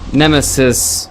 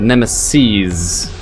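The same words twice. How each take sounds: First: The word ends with a short 'iss' sound. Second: The word ends with a long 'eez' sound. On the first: Just one thing is meant. The speaker calls it wrong. "not Nemesis" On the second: More than one is meant. The speaker calls it right. "but Nemesis. Because there's multiple"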